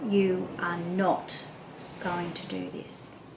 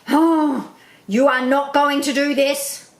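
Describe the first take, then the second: First: It sounds calm and low. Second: It sounds angry and high-pitched.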